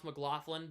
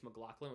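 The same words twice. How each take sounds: First: "McLaughlin" with an f sound; pronounced McLaughlin. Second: "McLaughlin" with a k sound; alternative McLaughlin. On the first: Shown as a demonstration. Streamer stating how it's pronounced, f sound in "McLaughlin". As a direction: say "McLaughlin" as muh-GLOFF-lin. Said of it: "And it's pronounced McLaughlin". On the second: Retold or imitated. Streamer quoting some people, k sound in "McLaughlin". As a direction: say "McLaughlin" as muh-GLOCK-lin. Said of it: "some people say it's".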